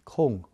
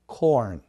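First: The vowel glides from o to u. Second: The vowel is r-colored with a curled tongue. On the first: It names a cone shape. The speaker calls it wrong. "おからうに変化する音" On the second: It names the grain. The speaker calls it right. "トウモロコシの方はさっき言ったように舌をちょっと丸めますね。"

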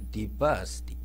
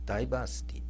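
First: The first syllable sounds like 'dee'. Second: The first syllable sounds like 'dye'. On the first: The speaker calls it right. "ディバーシティって発音するのが正しいんじゃないでしょうか" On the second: The speaker calls it wrong. "ダイバーの人があの集う集う街みたいに聞こえる"

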